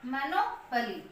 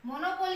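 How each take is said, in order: First: "मोनोपली" with a weak schwa, mə-no-pə-li; correct pronunciation. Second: "मोनोपोली" with a full long o in the third syllable; wrong pronunciation. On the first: Teacher gives students the right form, "मोनोपली" with a reduced pə. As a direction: reduce the third syllable of "मोनोपली" to a quick pə. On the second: Teacher shows students the wrong way, a full o in "मोनोपोली". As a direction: say "मोनोपोली" with a clear po, the way it should not be. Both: Shown as a demonstration. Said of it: "मोनोपोली नहीं है ये".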